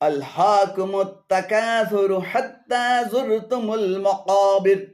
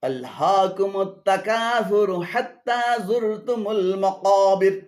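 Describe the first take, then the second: Both takes have the same delivery.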